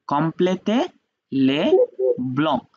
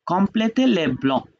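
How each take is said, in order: First: Complétez, les, blancs each said apart with pauses; teacher separating complétez les blancs into words. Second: Said in the usual way. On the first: Shown as a demonstration.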